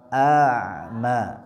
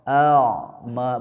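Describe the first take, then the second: First: The vowel sounds thin and light. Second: The vowel sounds thick and heavy. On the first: The speaker calls it right. "suaranya ditipiskan ya" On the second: The speaker calls it wrong. "tidak dibaca a'ma"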